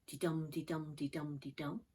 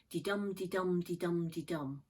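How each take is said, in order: First: De-dum chanted with the dum stressed, softer and lower; softer iambic beat. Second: Dee-dum chanted with the dum stressed each time; iambic beat. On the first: Teacher repeating the meter for students, softer chant. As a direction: repeat the iambic beat quietly, weak then strong. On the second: Teacher demonstrating iambic meter, rhythmic chant. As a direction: tap out the iambic beat, weak then strong. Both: Shown as a demonstration. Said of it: "very regular iambic meter".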